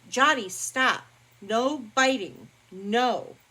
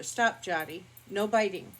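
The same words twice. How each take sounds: First: Louder, higher stern shout at the dog; real sharp reprimand; loud scolding. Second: A firm word to the dog; mild no-nonsense correction; firm scolding. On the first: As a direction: snap the dog out of biting. Scolding dog biting her. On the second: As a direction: tell the dog off, moderately. Scolding dog during video. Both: Real, not acted.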